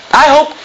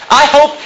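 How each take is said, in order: Both takes have the same delivery.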